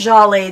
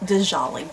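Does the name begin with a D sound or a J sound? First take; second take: J sound; D sound. First: The name begins with a J sound. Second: The name begins with a D sound. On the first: The speaker calls it right. "I think the D is silent" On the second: The speaker calls it wrong. "we used to pronounce it Dijolly"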